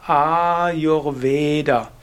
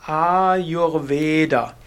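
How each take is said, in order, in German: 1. Die langen Vokale und das letzte a werden ausgesprochen. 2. Die langen Vokale und das letzte a werden ausgesprochen.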